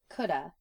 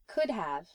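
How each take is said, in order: First: The words run together into one reduced form. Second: Both words are pronounced fully and separately.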